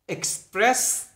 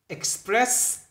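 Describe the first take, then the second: No difference in how they are said.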